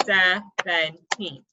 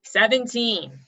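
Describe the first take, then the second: First: Put-on "seventeen" slowly in three beats, SE, VEN, TEEN; clapped-out syllables. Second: Said in the usual way. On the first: Shown as a demonstration. Teacher clapping the biggest word, "seventeen" slowly broken in three. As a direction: pull "seventeen" apart with pauses between syllables. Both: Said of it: "as you say it and as you clap it".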